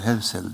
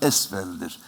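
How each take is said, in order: First: The name starts with h and has v. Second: The name starts with a vowel and has f. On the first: This is the form people commonly use today. The speaker calls it wrong. "Günümüzde kulakta hep dolmuş hevsel, hevsel denildi" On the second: This is the original, actual name. The speaker calls it right. "Aslında esfeldir"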